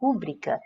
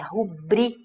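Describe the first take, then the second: First: The stress is on the first syllable. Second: The stress is on the second syllable. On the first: The speaker calls it wrong. "nós ouvimos muitas pessoas falarem rúbrica" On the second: The speaker calls it right. "a prosódia correta da palavra é rubri, bri, ou seja, ela é paroxítona"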